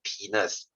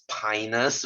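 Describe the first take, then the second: First: It is said to sound like 'penis'. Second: It is said to sound like 'pinus'. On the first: The speaker calls it wrong. "It's not penis" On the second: The speaker calls it right. "that one is pronounced as pinus"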